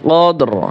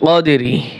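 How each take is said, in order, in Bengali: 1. শব্দটি শেষ হয়েছে একটি খালি 'r' ধ্বনিতে। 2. শব্দটি শেষ হয়েছে একটি শেষের 'i' স্বরধ্বনি দিয়ে। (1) "শুধু র উচ্চারণ হবে" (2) "রাজের রি উচ্চারণ হবে না"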